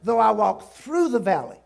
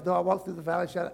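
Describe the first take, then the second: First: Through stressed with louder voice. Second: Hurried, run-together reading; rushed wrong reading. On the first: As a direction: lean on through, we pass through. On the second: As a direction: rattle it off carelessly. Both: Shown as a demonstration. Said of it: "I, no, no".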